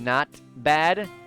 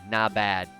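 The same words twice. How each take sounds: First: The T at the end of 'not' is pronounced. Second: The T at the end of 'not' is dropped. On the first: "instead of saying not bad" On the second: "it's just without the T"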